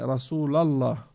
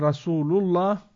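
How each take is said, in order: First: The vowel after Rasul is an 'a' sound. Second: The vowel after Rasul is a 'u' sound. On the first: The sentence is left incomplete, lacking its predicate. The speaker calls it wrong. "avec la fatha sur le Rasul à la fin" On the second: Muhammad is the messenger of God, a complete sentence. The speaker calls it right. "au lieu de dire Rasulullah"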